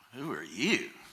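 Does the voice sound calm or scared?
calm. The question sounds calm and unafraid. The person asking is not frightened.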